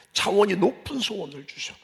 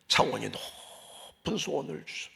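First: Said in the usual way. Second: Soft slow repeat. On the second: Shown as a demonstration. Preacher to congregation, hushed emphasis. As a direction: drop to a hush and slow down.

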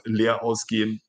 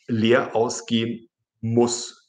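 First: Said in the usual way. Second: "leer ausgehen muss" spelled out slowly, stress on "leer"; slow teacher's dictation of "leer ausgehen muss"; slow, careful. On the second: Shown as a demonstration.

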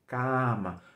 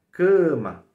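First: Cama com a oral aberto, voz normal; cama espanhol de boca aberta; oral Spanish cama. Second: Cama nasal, muito mais alta; cama em português, nasalizada e forte; nasal Portuguese cama. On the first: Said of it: "não é nasal, e sim oral". (cama oral, sem nasal) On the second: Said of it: "Isso acontece com muitas palavras". (cama nasal e enfática) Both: Shown as a demonstration.

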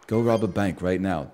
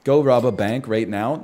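First: Lower, softer put-on British accent. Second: Said in the usual way. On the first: Shown as a demonstration. Darren Brown ordering a bank robbery, low British accent. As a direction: give the command in a British accent. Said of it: "you have to say it in a British accent". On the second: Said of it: "No, you have to say it in a British accent".

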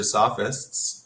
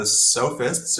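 First: "sophists" with a short O, SOFF-ists; alternative pronunciation. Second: "sophists" with a long O, SOH-fists; first guessed pronunciation. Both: Shown as a demonstration. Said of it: "not quite sure how to pronounce that".

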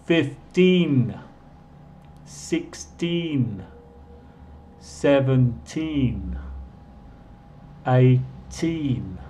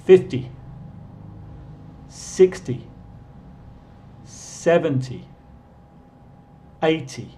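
First: Fifteen, sixteen, seventeen, eighteen with the ee drawn out long; long teen endings. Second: Fifty, sixty, seventy, eighty with short, quick y endings. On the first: Teacher modelling teens for students to repeat, drawn out. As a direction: slowly stretch every teen. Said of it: "Voy a repetir todos". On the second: Teacher modelling tens for students to repeat, clipped. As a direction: clip each ty short. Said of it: "Y ahorita esos". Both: Shown as a demonstration.

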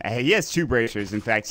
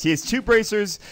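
First: Said in the usual way. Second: Two punched high and loud; stress on two. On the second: Real, not acted. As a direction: hit the word two, pitch up.

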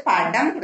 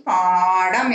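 First: படம் with a short first "a"; short vowel. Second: பாடம் with the "aa" held long; long vowel. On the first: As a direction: keep the opening of படம் brief. (படம் குறிலாக, குறுக்கி) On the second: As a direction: stretch the first vowel of பாடம். (பாடம் நெடிலாக, நீட்டி) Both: Shown as a demonstration. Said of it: "நீ பாடம் எழுதணும்".

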